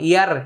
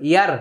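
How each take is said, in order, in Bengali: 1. র উচ্চারণ হালকা ও সরু। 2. র উচ্চারণ হালকা ও সরু।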